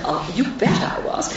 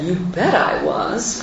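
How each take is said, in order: First: Soft, higher Newcastle lilt imitating mother; mother's Newcastle accent. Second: Said in the usual way. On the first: Daughter redoing her mother's proud reply in her Newcastle accent. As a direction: put on mum's Geordie accent, softly. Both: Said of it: "I'm sorry, I'll do her accent".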